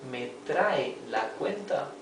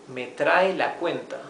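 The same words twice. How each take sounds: First: It ends with a rising, questioning tune. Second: It ends with a falling, commanding tune.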